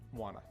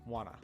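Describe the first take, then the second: First: The words blend into one with the Ts dropped. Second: The words blend into one with the Ts dropped.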